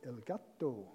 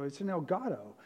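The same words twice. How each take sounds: First: "Elgato" said the Spanish way, el GAH-toh, with a clear t; "Elgato" as a Spanish word, rolled lightly, stress on ga; Spanish pronunciation. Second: Said in the usual way. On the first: Retold or imitated. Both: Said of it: "he says it in Spanish".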